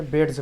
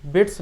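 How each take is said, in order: First: "बेड्स" ending in a voiced z. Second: "बेड्स" ending in a voiceless s. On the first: Teacher correcting the reading, "बेड्स" with a z ending. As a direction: say "बेड्स" as bedz, lower, with a buzzing z. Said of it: "बेड्स पढ़ेंगे". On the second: Teacher showing what not to read, "बेड्स" with an s ending. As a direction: say "बेड्स" as beds with a hissed final s. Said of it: "बेड्स नहीं पढ़ेंगे". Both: Shown as a demonstration.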